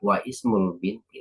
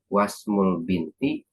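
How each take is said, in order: First: A glottal stop separates wa from ismul. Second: Wa runs straight into smul without a stop. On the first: The speaker calls it wrong. "hamzahnya tidak wa ismul binti" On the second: The speaker calls it right. "tapi langsung saja wasmul binti"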